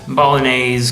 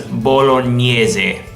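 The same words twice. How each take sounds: First: It is said with an English pronunciation. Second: It is said with an Italian pronunciation. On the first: "The English pronunciation of this" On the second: "In Italian, you pronounce this as"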